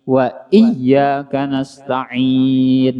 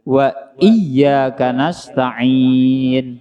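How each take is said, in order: The two takes are said the same way.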